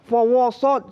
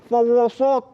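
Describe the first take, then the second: First: The w and s sounds are heavy and thick. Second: The same.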